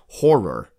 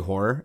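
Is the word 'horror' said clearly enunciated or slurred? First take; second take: enunciated; slurred. First: It is clearly said with two syllables. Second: It is slurred and sounds like one syllable. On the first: The speaker calls it right. "I have to enunciate" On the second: The speaker calls it wrong.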